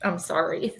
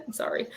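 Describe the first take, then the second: First: Said in the usual way. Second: Breathless, half-laughing apology; whispered sorry, caught between laughing and crying. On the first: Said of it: "This is not sadness". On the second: Real, not acted. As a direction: laugh through tears as you apologise. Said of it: "very emotional".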